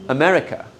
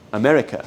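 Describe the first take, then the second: First: America with a weak first A, uh-MER-i-kuh; the English pronunciation. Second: America with schwas, uh-MER-i-kuh; the repeated English pronunciation. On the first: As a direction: say America the English way with reduced vowels. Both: Shown as a demonstration. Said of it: "No hay una A en la palabra".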